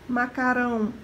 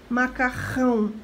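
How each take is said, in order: No difference in how they are said.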